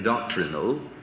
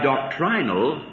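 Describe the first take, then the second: First: It is said with an American pronunciation. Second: It is said with a British pronunciation.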